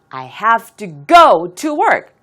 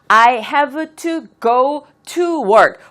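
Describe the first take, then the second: First: The middle 'to' is weak and quick, keeping the rhythm. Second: The middle 'to' is said fully, breaking the rhythm. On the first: The speaker calls it right. "딴딴딴딴 딴딴 이렇게 되죠. 중간에 to는 발음을 할 여력이 없어요" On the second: The speaker calls it wrong. "보통 이렇게 많이 하시거든요. 이렇게 하시게 되면 박자를 놓치게 돼요"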